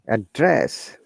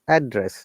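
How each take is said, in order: First: The stress is on the second syllable. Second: The stress is on the first syllable. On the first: It is used as a verb. "When we use as a verb, same word, we stress in the second part" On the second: It is used as a noun. "noun or adjective, we stress on the first part"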